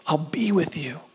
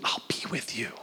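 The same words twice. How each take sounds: First: Said in the usual way. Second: Much softer whispered promise. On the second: Acted. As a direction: whisper it close and tender. God's promise, then repeated.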